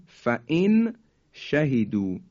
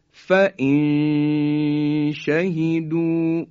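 First: Said in the usual way. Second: فإن شهدوا slow, nun hidden into the sh with nasal hum; ikhfa demo. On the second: Shown as a demonstration. Teacher reciting slowly to show ikhfa. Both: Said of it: "مثال بعدی".

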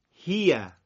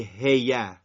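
First: هیه said slowly with a clear ee-glide after the kasra; correct vowel. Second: هیه said the wrong way, with a plain short vowel. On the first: Teacher models the correct هیه slowly for students. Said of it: "میگی هیه". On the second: Teacher shows students the wrong way to say هیه. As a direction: demo the mistaken هیه the class should avoid. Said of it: "شما میگی هیه، نمیگی هیه". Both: Shown as a demonstration.

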